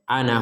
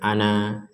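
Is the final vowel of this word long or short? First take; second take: short; long. First: The final vowel is cut short. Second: The final vowel is held long. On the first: The reading continues into the next word. "kalau disambung dibaca pendek" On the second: The reading stops after this word. "kalau dibaca ana, maka di sini dibaca ana, ada satu alif"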